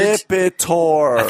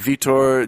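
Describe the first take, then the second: First: The name is said slowly and deliberately. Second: The name is said at a normal quick pace.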